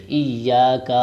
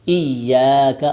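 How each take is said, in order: First: ایاک with a stretched final kaf; wrong way. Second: ایاک said loudly with a short kaf; corrected pronunciation. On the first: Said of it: "ایاک نہیں کہیں گے". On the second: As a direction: punch out ایاک with a short crisp ending. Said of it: "نہیں کہیں گے". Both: Shown as a demonstration.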